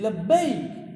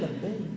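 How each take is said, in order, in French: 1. Le mot est prononcé d'une voix forte et élevée. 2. Le mot est prononcé d'une voix douce et calme. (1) "il a élevé la voix" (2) "Au lieu de dire"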